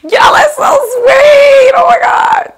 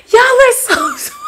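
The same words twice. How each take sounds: First: Overwhelmed cry-shout. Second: High, giggling through the words; touched laugh at a fan's comment. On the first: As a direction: cry out Y'all are so sweet, near tears. Overwhelmed by compliments. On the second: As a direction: laugh while you say Y'all are so sweet. Reacting to compliments. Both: Real, not acted.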